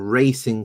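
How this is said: It is pronounced the English way. "That's how you will pronounce it in English"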